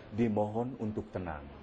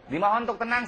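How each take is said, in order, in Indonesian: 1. Suaranya bernada rendah dan tenang. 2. Suaranya bernada tinggi dan memanas.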